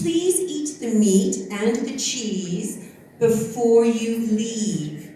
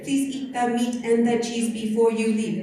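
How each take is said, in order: First: The vowels are long and broadened. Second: The vowels are short and choppy. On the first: The speaker calls it right. "in English, you lengthen, broaden everything" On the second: The speaker calls it wrong. "sometimes they flip it ... because that's staccato"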